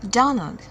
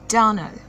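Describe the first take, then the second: No difference in how they are said.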